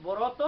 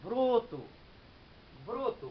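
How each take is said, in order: First: ব্রত read letter by letter as written; spelled form. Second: ব্রত said as brot, with an o after r; ব্রত with an o sound as actually spoken; spoken form. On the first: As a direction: say ব্রত as it is spelled, with a short open vowel. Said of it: "লিখছি এমনি ব্রত". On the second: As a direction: pronounce ব্রত as brot-o, rounded o vowel. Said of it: "কিন্তু উচ্চারণ করি আমি". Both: Shown as a demonstration.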